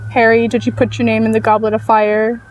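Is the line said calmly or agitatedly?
calmly. The line is said calmly and quietly.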